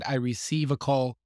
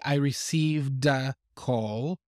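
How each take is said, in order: First: There is no d sound after receive. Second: A d sound links received to a call. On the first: The speaker calls it wrong. "when he said, I receive a call" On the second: The speaker calls it right. "with the linking, you would probably hear that d sound in the past tense"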